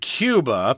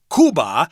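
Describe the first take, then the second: First: The word is pronounced the English way. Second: The word is pronounced the Spanish way. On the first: "in English we say Cuba" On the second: "Cuba in Spanish is called Cuba"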